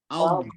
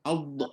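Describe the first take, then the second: First: The final consonant stays soft with no bounce. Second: The final consonant ends with an echoing bounce. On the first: The speaker calls it right. "lidah depan jangan tekan, dia hanya sentuh je" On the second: The speaker calls it wrong. "kalau lidah depan tu tekan kuat, nanti dia jadi qalqalah"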